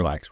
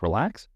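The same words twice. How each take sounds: First: Said in the usual way. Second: Relax said with a rising question tune. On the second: Shown as a demonstration. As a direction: mirror Relax back curiously. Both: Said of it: "using an upward inflection".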